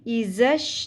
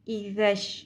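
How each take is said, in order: First: The middle consonant is a hard buzzing z. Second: The middle consonant is a soft th sound. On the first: The speaker calls it wrong. "इज़श नहीं पढ़ना" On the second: The speaker calls it right. "ज़ैल नरमी से अदा होगा"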